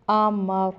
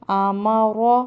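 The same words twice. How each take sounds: First: آمر closed on r, no final vowel; pausal reading. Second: آما را with a thick, full, rounded "ro" at the end; final vowel of آما را sounded, thick r; heavy ra. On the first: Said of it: "آگے وقف". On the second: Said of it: "اس کو موٹا ادا کرتے ہیں". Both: Shown as a demonstration.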